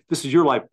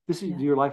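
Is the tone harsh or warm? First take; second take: harsh; warm. First: It is said in a harsh, dismissive tone. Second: It is said in a warm, respectful tone. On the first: The child is left to fend alone. The speaker calls it wrong. "it's not like this is your life, buddy" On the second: The child's choices are respected and supported. The speaker calls it right. "It's like this is your life. I respect it"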